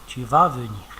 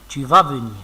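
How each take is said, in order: First: It is said with statement intonation. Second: The same.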